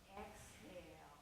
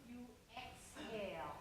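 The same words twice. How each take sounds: First: Long soft exhale. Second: Said in the usual way. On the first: Shown as a demonstration. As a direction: Exhale drawn out slow and soft.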